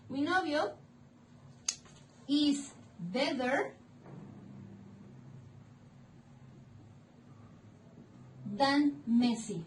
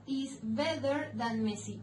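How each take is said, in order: First: Slow "is better", long pause, then "than Messi"; "is better than Messi" drawn out in separate pieces; slow modelling. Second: Said in the usual way. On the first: Shown as a demonstration. Teacher building an English example for students, slowly.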